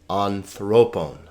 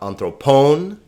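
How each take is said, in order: First: The stress is on the second syllable. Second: The stress is not on the second syllable. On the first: The speaker calls it right. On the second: The speaker calls it wrong.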